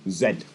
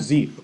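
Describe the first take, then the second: First: The letter is said the British way, zed. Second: The letter is said the American way, zee.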